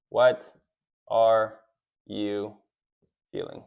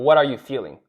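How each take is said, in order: First: Each word spaced out, fading to near silence; slow, word by word. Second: Said in the usual way. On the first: Shown as a demonstration.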